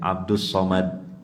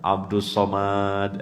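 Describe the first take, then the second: First: The vowel after the m is short. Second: The vowel after the m is long. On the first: The speaker calls it right. "Dibaca pendek" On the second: The speaker calls it wrong. "jangan panjang. Abdus Somad itu salah"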